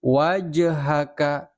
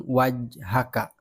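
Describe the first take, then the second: First: "Wajhaka" slow, the j bouncing into a light vowel, "waja-haka"; bouncing jim. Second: "wajhaka" with the j closed straight into h; wrong flat jim. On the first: Teacher models the bouncing jim for pupils, slow. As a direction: let the j in "Wajhaka" rebound. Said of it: "Bukan wajhaka". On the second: Teacher shows pupils the wrong, unbounced jim. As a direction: shut the j in "wajhaka" with no bounce. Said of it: "wajhaka itu salah". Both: Shown as a demonstration.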